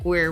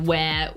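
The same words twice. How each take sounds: First: It is said in an American accent. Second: It is said in a non-American accent. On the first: "and you're like, where" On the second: "Because I go where"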